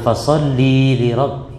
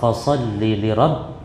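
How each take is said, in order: First: The vowel in 'li' is drawn out long. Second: The vowel in 'li' is short. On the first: The command is addressed to a woman. The speaker calls it wrong. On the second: The command is addressed to a man. The speaker calls it right.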